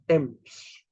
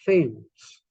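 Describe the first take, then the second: First: It begins with a plain t sound. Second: It begins with a th sound, as in thief. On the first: The speaker calls it right. "but it's not. It's Thames" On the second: The speaker calls it wrong. "th is th, thief, but the river T-H-A-M-E-S then should be Thames"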